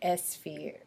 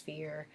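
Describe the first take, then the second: First: An extra vowel sound comes before the s. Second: The word starts directly with the s sound. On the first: "she would say like S sphere" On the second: "instead of just sphere"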